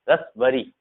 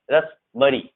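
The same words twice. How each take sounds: The two takes are said the same way.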